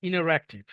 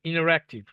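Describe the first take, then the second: No difference in how they are said.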